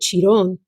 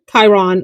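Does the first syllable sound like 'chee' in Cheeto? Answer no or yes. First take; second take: yes; no. First: The first syllable sounds like 'chee' in Cheeto. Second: The first syllable does not sound like 'chee'. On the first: The name is taken to be Italian. The speaker calls it wrong. "I called it Chiron. I was thinking it's an Italian brand... this has to be Cheeto" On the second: The name is that of a celestial body. The speaker calls it right. "this is from the Comet line"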